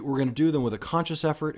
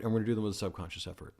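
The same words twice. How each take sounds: First: "conscious" punched, higher and louder; stress on conscious. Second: Hurried, offhand; quick and light. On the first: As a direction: hit the word "conscious" hard. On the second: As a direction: rattle it off fast. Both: Shown as a demonstration. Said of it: "conscious effort vs subconscious effort".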